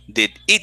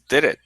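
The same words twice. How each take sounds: First: The two words are said separately. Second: The two words run together like one. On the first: The speaker calls it wrong. "It doesn't sound did it" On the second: The speaker calls it right. "it says did it"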